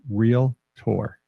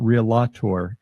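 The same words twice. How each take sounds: First: It begins with 'real', as in real estate. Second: It begins with an extra syllable, like 'rela'. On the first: The speaker calls it right. "it's realtor. As in real estate, as in realty" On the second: The speaker calls it wrong. "It's not realtor"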